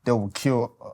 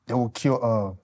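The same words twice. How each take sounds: The two takes are said the same way.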